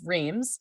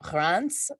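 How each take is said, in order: First: Reims is said with an English pronunciation. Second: Reims is said with a French pronunciation. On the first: This is what outsiders call the town. The speaker calls it wrong. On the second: This is what the locals call the town. The speaker calls it right.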